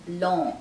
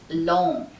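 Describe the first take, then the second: First: The syllable has an open 'o' vowel. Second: The same.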